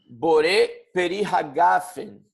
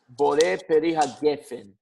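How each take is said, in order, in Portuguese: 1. A última palavra é dita com a vogal 'a'. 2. A última palavra é dita com a vogal 'e'. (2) "Os Sefaradim falam hagefen"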